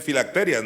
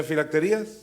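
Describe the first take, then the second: First: "filacterias" stressed on TE; no accent on the I in "filacterias"; correct accent placement. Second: "filacterías" with the accent on the í; former mistaken accent. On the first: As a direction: say "filacterias" ending in TE-rias. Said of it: "No tiene acento en la I". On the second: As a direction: say "filacterías" ending in te-RÍ-as. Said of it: "por qué yo decía filacterías". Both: Shown as a demonstration.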